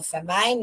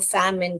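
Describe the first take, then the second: First: The second syllable rhymes with 'mine'. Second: The second syllable sounds like short 'min'. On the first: The speaker calls it wrong. "फेमाइन नहीं पढ़ने का" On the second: The speaker calls it right. "इसको फैमिन करके पढ़ने का"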